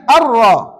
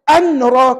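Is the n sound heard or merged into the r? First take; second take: merged; heard. First: The n sound merges fully into the r. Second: A separate n sound is heard before r. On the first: The speaker calls it right. "Dia kena baca ar-ra. Masukkan tanwin ke dalam ra" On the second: The speaker calls it wrong. "Jangan baca an-ra. Kalau baca an-ra, salah"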